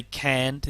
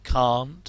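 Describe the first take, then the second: First: Can't in an American twang, rhyming with "ant". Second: Said in the usual way. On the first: Shown as a demonstration. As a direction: say can't as "cant", with the flat American a of "cat". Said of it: "give that sort of American twang". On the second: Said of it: "say can't instead of can't".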